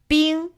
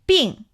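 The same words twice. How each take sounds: First: The word is said on a high level tone. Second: The word is said on a sharply falling tone. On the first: It means ice. "first tone" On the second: It means ill. "fourth tone"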